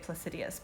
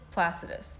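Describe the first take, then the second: First: The name is said with four syllables. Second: The name is said with three syllables. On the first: The speaker calls it wrong. "Some people say Placidius, but I think there's not two I's" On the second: The speaker calls it right. "I think I'm saying that correctly"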